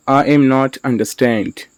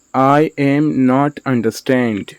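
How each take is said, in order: First: Said in the usual way. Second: Slow, separated words for learners; slow model sentence. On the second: Shown as a demonstration. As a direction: say "I am not understand" slowly, word by word. Teacher repeats word by word.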